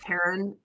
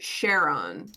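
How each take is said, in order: First: The name begins with a K sound. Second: The name begins with an SH sound. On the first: "Greek C H is usually pronounced like a K" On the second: "they pronounce it Sharon ... like a sh sound instead"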